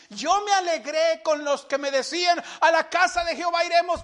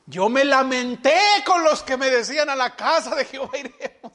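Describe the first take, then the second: First: Psalm recited high and exultant, the second half quicker; joyful recitation. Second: The same psalm turned into a moping mock lament. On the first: Retold or imitated. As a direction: proclaim the verse with rising joy. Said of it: "Vea, vea el gozo, la alegría". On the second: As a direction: sigh the verse as if it were a burden. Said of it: "imagínese".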